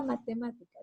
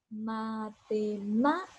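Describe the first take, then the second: First: Said in the usual way. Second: "matemáticas" slowly syllable by syllable, "má" raised; stress on MÁ. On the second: Shown as a demonstration. Teacher showing where the accent falls, "matemáticas" slowed and punched on "má". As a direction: say "matemáticas" as ma-te-MÁÁ-ticas, stretching the stressed syllable. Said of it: "aquí en esta ma es donde yo elevo la voz".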